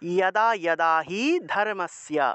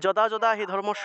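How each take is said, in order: First: The first word begins with a y sound. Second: The first word begins with a j sound. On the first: The speaker calls it right. "আমরা উচ্চারণ করব ইয়াদা ইয়াদা হি ধর্মস্য" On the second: The speaker calls it wrong. "না বলে"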